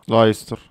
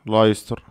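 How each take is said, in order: Both takes have the same delivery.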